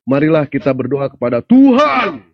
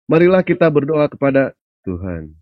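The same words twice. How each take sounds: First: The word Tuhan is said big and loud. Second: The word Tuhan is said small and soft. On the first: The capitalized Lord, God himself, is meant. "Artinya itu huruf besar" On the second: A lowercase lord, a lesser god, is meant. "Ngomong Tuhannya kecil itu Pak"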